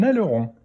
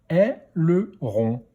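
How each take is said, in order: First: Said in the usual way. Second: Slow "Aileron", split into è, le, ron; syllable by syllable. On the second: Shown as a demonstration. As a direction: sound out "Aileron" in three beats. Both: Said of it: "dans quelle syllabe".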